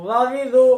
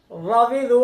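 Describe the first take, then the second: No difference in how they are said.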